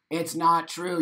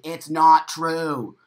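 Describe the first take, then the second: First: Said in the usual way. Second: "not" punched, louder and slow; stress on not. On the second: Real, not acted. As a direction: hammer "It's not true" slowly.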